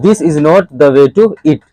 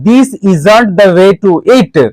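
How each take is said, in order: First: 'Is not' is said as two full words. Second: 'Is not' is contracted into one word. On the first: "तो आप बोल सकते हैं" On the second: "short ही बोला जाता है ज्यादा।"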